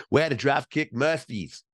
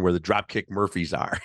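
First: A bad Boston accent, pitched a bit up; terrible Boston accent. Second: Said in the usual way. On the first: Host mimics Ben Affleck in a terrible Boston accent. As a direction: drop the R's like a bad Boston impression. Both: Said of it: "That's my terrible Boston accent".

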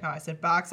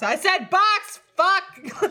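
First: Said in the usual way. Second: High, loud frustrated outburst; sudden explosive yell. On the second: Acted. Acting out self-correction after a fluffed word, sudden yell. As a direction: go from zero to a hundred in volume. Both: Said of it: "from zero to a hundred volume-wise".

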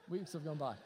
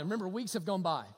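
First: Softer repeat, weeks leaned on; quiet echo. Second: Said in the usual way. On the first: Shown as a demonstration. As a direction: let it sink in softly.

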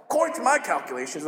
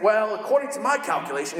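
First: Fast nerdy dork voice; a hint of a nerdy Gideon; Gideon's nerdy voice. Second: Nerdy dork voice for Gideon; a lightly voiced nerdy Gideon; Gideon's nerdy voice. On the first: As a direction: rattle it off like a know-it-all. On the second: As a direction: play Gideon as a know-it-all dork. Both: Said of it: "I don't know why I do that voice".

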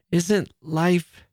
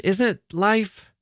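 First: Halting, higher voice; stammering. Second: Faltering, voice rising higher; stammering, higher. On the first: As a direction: falter over the words. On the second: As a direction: stammer it again, pitching up higher. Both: Acted. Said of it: "she stammered".

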